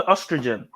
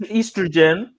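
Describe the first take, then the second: First: Oestrogen with soft low start. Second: Estrogen with long EE start. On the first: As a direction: say oestrogen quietly, lower. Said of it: "Some people say". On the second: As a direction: say estrogen as EEstrogen. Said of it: "some people say". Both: Shown as a demonstration.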